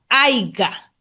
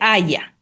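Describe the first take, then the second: First: The word has a g sound in the middle. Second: The word has no g sound in the middle. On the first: The speaker calls it wrong. "¿Cuál es la forma incorrecta?" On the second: The speaker calls it right. "se dice haya"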